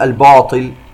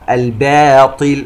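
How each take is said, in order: First: The b is heavy like the t. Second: The b is thin and the t is heavy. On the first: The speaker calls it wrong. "ولا نقول" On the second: The speaker calls it right. "يجب أن ننتبه إلى لفظ الباء المرققة من ثم الطاء المفخمة"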